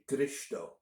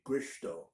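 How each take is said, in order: First: The R sound is rolled. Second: The R sound is not rolled. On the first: "One thing we do in northern Indiana is roll the R" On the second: "not roll the R and just say"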